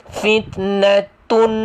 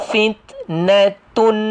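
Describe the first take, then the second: No difference in how they are said.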